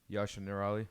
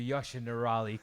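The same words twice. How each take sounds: First: It is said plainly with little energy. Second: It is said loudly with lots of energy. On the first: The speaker calls it wrong. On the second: The speaker calls it right.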